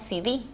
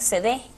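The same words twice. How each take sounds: First: The letters are named the English way. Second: The letters are named the Spanish way. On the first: The speaker calls it wrong. "eso corresponde a la forma inglesa" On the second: The speaker calls it right. "la Real Academia Española incluyó la pronunciación"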